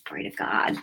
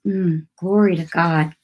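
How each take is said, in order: First: Breathy whisper, almost no voice; whispered praise. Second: Said in the usual way. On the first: Real, not acted. Preacher whispers praise to God to herself. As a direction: let the praise fall to a hushed whisper.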